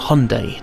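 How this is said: The name is said with a simplified American pronunciation. "in the US it's often simplified to"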